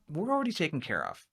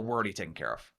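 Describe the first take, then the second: First: It is said in a hesitant, uncertain tone. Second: It is said in a curt, closed-off tone. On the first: They may be unhappy with their current solution. "It sounds like they might be a little apprehensive" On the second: They do not want to talk any further. "that's not really inviting much of a conversation"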